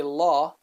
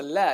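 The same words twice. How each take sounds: First: "la" with a dark, back "lah" vowel; wrongly heavy lam. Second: "la" with a thin, front "læ" vowel; light lam. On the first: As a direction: say "la" thick, as the version to avoid. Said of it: "You don't say la". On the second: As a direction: say "la" light, tongue forward. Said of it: "the lam is a light letter". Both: Shown as a demonstration.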